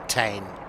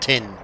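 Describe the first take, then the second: First: The vowel is a long 'ay' sound. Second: The vowel is a short 'i' sound. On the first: This is how the spelling reads. "T E I G N is definitely Tain" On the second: This is how locals say it. "It's not Tin"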